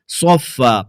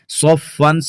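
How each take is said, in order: First: The word ends with a long a vowel. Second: The word ends with an n sound. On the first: This is the form used when stopping. "दो ज़बर की तनवीन को अलिफ से बदल कर पढ़ेंगे" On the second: This is the form without a stop. "सौफ़न है"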